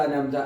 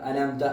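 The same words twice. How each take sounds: Both takes have the same delivery.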